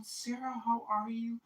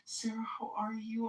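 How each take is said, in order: First: Higher, softer sing-song fussing; mock concern. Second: Breathy whispered fuss, higher pitch; mock concern, whispered. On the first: Hotel group fussing over Sarah, higher mock concern. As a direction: gush over her, hamming up the worry. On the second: Hotel group repeating to Sarah in a whispered mock concern. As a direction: whisper the worry like a gossip. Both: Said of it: "everybody's like".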